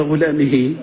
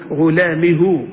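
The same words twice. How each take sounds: First: غلامه said as ghulamihi, the final ha with i; غلامه with the lighter i vowel, ghulamihi; kasra ending. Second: غلامه said as ghulamihu, the final ha with u; غلامه with the heavier u vowel, ghulamihu; damma ending. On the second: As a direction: pronounce غلامه slowly ending in hu. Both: Shown as a demonstration. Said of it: "أيهما أسهل".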